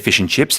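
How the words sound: The vowel in chips sounds like dip. "when Australians say fish and chips, they use the I pronunciation"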